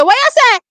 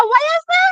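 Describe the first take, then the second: First: Higher, louder startled cry; you can't believe what you heard; shocked disbelief. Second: Much higher, squeaky startled cry; shocked disbelief. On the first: Retelling her reaction to the commentator, shocked and loud. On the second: Repeating her reaction to the commentator, higher and shocked. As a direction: still can't believe it. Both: Retold or imitated. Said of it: "Me say".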